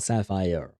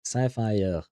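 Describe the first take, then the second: First: It is pronounced the English way. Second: It is pronounced the English way.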